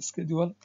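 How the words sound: It is said with an American pronunciation. "The American pronunciation is schedule"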